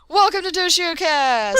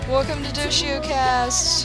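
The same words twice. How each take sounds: First: It is said with lots of energy. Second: It is said flatly, with little energy.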